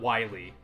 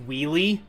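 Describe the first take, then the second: First: The name begins like the word 'while'. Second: The name begins like the word 'wheel'. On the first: The speaker calls it wrong. "not Wily" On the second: The speaker calls it right. "it's actually pronounced Wheelie"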